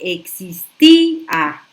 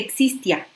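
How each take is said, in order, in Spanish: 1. La i lleva el acento y se separa de la a. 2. La i y la a se unen en una sílaba. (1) "poniéndole un acento a la I" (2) "si yo no rompo ese diptongo que está haciendo la I y la A"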